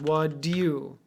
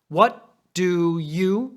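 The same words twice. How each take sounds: First: The phrase is said very fast and compressed. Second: The phrase is said quickly but less compressed. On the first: "And then even faster" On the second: "But even faster"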